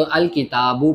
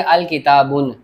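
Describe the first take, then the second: First: अल किताबु ending on a short u, no final n; correct reading without nunation. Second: अल किताबुन ending on a clear un; wrong reading with nunation. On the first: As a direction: say अल किताबु with the tanween dropped. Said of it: "अल किताबु पढ़ेंगे". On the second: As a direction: say अल किताबुन with the tanween kept, the wrong way. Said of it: "ऐसे नहीं पढ़ेंगे". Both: Shown as a demonstration.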